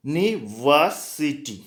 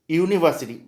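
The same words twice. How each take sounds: First: university drawn out slowly, each syllable spaced; slow demo word. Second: Said in the usual way. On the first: Shown as a demonstration. Teacher showing the class how it sounds, slow and deliberate. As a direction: spell out university by ear, slowly. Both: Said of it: "pronunciation कैसे होता है?".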